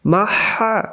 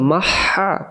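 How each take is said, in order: Both takes have the same delivery.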